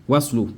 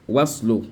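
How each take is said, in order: Both takes have the same delivery.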